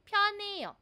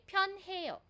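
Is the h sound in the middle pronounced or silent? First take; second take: silent; pronounced. First: The h sound in the middle is silent. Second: The h sound in the middle is pronounced. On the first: "we have the natural way" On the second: "And in the beginner way"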